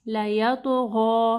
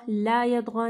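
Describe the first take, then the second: First: लयतग़ा slow with a heavy त्वा; correct tajweed. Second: ला यतग़ा split apart, ला stressed; wrong reading demo. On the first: Teacher demonstrating the heavy त्वा, slowly. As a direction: give the त in लयतग़ा a thick heavy sound. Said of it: "त्वा को यानी heavy पढ़ना है". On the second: Teacher showing the mistake to avoid, ला split off. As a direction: break ला off from यतग़ा. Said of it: "ला यतग़ा नहीं पढ़ना". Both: Shown as a demonstration.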